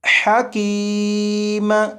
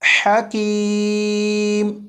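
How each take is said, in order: First: The final m is released with a clear echo. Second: The final m stops abruptly without an echo. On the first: The speaker calls it wrong. "तो ये कलकला खूब जाहिर करके पढ़ा गया। तो इस तरह नहीं पढ़ेंगे" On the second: The speaker calls it right. "मीम को पढ़ते ही आवाज़ को ख़त्म कर देंगे"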